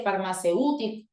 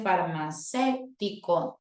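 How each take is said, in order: First: "farmacéutico" wrongly stressed on the U; misplaced stress demo. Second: "farmacéutico" stressed on the E; careful "farmacéutico", weight on E rather than U; corrected stress demo. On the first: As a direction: lean on the U in "farmacéutico". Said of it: "la tilde no está en la vocal". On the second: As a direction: stretch the E in "farmacéutico". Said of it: "tilde en la E". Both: Shown as a demonstration.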